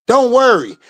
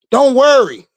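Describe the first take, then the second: No difference in how they are said.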